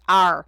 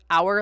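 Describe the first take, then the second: First: It is said in an Irish or British-sounding accent. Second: It is said in a plain North American way. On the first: "a really weird accent I've started picking up" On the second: "I always have said like our"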